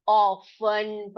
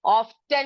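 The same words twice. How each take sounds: First: Often as slow, low "off-un", no t; silent t. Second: Often with the t sounded, "off-ten"; wrong pronunciation. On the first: Teacher showing pupils the right reading, silent t. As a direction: draw out Often, dropping the t. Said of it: "टी को silent करके पढ़". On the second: Teacher showing how not to read it, wrong pronunciation. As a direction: slowly stress the t in Often. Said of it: "Often नहीं पढ़ेंगे". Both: Shown as a demonstration.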